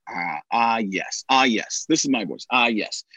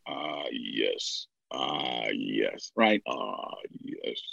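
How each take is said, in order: First: A hint of a lower storyteller voice; practice phrase. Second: Very low, much softer rumble; deepest voice possible. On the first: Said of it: "the phrase for me was". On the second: Teaching a deep voice, going as low as possible. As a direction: drop to the bottom of your range. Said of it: "bring it down to the deepest voice". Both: Shown as a demonstration.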